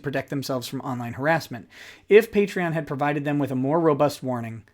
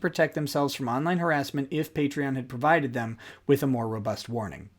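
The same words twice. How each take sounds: First: The voice falls and breaks after 'harassment'. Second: The voice carries on smoothly past 'harassment'. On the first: The if-clause sounds like a separate new sentence. The speaker calls it wrong. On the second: The if-clause belongs to the same sentence. The speaker calls it right.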